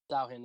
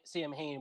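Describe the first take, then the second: First: The name is not read out as spelled. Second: The name is read out as spelled. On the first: The speaker calls it right. "is actually pronounced" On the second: The speaker calls it wrong.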